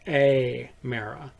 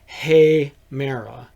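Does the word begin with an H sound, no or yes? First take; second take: no; yes. First: The word begins directly with a vowel. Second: The word begins with an audible H sound. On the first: The speaker calls it wrong. "rather than Amera" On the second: The speaker calls it right. "this one is pronounced Hemera"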